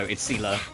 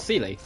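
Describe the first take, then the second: First: The name ends in an 'ah' sound. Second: The name ends in an 'ee' sound. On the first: The speaker calls it right. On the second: The speaker calls it wrong. "I just pronounced it how it was spelled"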